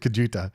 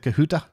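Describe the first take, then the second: First: The J is said like an English J. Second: The J is said like an H.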